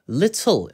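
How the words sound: British accent, the t is pronounced clearly. "영국식으로는 little, little 이렇게 T 소리를 명확하게 살려서"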